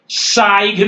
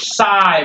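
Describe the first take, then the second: First: The word ends with a g sound. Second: The word ends without a g sound. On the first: The speaker calls it wrong. "साइग नहीं बोलेंगे" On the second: The speaker calls it right. "इसलिए आप सिर्फ साई बोलेंगे"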